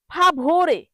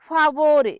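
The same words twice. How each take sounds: First: Emphatic model ফাভোরে, v sound not b; correct pronunciation. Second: Louder ফাভোরে with b for v; emphatic wrong-way ফাভোরে, hard b; common mispronunciation. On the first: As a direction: say ফাভোরে as "fa-bho-re", stressing ভ. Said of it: "এখানে ভ উচ্চারণ হবে". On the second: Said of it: "কিন্তু অনেকে বলে". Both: Shown as a demonstration.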